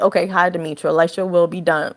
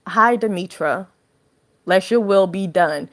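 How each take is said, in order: First: It is said casually, without belief. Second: It is said sincerely, with belief.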